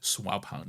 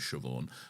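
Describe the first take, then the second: First: The name begins with a 'swab' sound. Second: The name begins with a 'shiv' sound. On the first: The speaker calls it wrong. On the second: The speaker calls it right.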